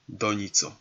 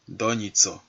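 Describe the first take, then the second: No difference in how they are said.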